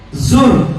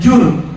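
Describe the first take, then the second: First: The syllable starts with a buzzing z sound. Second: The syllable starts with a j sound. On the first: The speaker calls it right. "tapi pakai zai" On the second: The speaker calls it wrong. "bukan jur"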